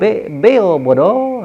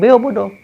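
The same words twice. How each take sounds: First: Drawn out slowly, syllable by syllable; slow parrot coaching. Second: A higher, lightly voiced parrot echo; parrot repeating. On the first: Retold or imitated. Preacher teaching the parrot its words, very slow. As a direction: spell it out slowly as if training a parrot. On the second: The parrot echoing its lesson, a light parrot voice. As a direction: squawk it back like a parrot, mildly. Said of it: "nanti dia bilang".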